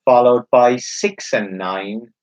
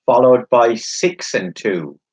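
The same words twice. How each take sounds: First: Slow, drawn-out bingo call; bingo caller. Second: Bingo caller. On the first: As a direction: stretch the numbers like a caller. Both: Acted. Number called slowly.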